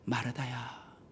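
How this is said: It is said softly in a kind tone.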